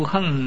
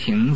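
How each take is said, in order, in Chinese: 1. 这个音节读 heng，用去声。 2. 这个音节读 xing。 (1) "为什么读横呢？他因为要读去声" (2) "本来是个行字"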